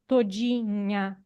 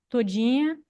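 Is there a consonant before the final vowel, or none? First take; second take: consonant; none. First: A nasal consonant comes before the final vowel. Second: Only a nasal i, with no consonant or glide. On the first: "uma pronúncia de como todinha" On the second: "só com um i nasal e sem consoante, sem glide"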